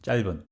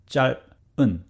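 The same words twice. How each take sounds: First: The word is said quickly. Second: The word is said slowly. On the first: "to the fast speed" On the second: "from slow speed"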